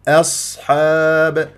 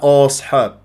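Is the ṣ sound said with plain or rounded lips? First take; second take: plain; rounded. First: The ṣ sound is hissed clearly with unrounded lips. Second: The ṣ sound is said with rounded lips. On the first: The speaker calls it right. "وأبين الصفير ولا أكور" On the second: The speaker calls it wrong. "فما أقول أنا أصحاب، لا"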